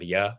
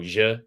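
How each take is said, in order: First: The consonant is a soft y sound. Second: The consonant is a buzzing zh-like sound. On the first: This is how it is usually said elsewhere. "instead of ya" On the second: This is how Argentinians say it. "they go je instead of ya"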